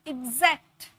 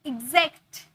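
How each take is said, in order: The two takes are said the same way.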